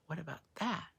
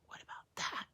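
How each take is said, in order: First: Said in the usual way. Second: What about that? breathed unvoiced, much softer; a secretive whisper to the viewers; conspiratorial whisper. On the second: Real, not acted. Repeated conspiratorial question.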